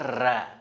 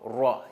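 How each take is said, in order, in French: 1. La lettre sonne claire, avec la bouche ouverte. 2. La lettre sonne sombre, avec les lèvres arrondies et fermées. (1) "c'est pas ra. On n'ouvre pas la bouche" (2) "on ferme la bouche"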